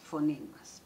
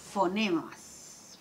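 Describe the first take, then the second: First: Said in the usual way. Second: Fonemas stretched slowly, each sound held; drawn out. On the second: Shown as a demonstration. Teacher spelling out fonemas slowly for the class. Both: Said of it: "También tenemos segmentación de".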